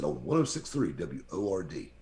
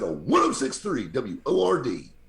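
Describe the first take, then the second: First: It is said in a plain, flat way. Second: It is said in an excited, enthusiastic way.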